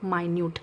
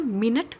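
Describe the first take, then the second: First: It is said with a long first vowel, my-NYOOT. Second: It is said as two short syllables, MIN-it. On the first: It means very tiny. "स्मॉल small pieces को हम माइन्यूट pieces बोलते हैं" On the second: It names a unit of time. "एक मिनट का मतलब होता है जो टाइम बताता है"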